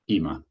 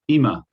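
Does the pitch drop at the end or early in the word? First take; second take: early; at end. First: The pitch starts high and drops early. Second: The pitch stays high and drops at the end. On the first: It means now. "it goes down actually. It goes ima" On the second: It means living room. "It stays high and drops at the end"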